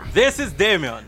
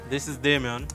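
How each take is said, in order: First: It is said with more energy. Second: It is said with ordinary, low energy.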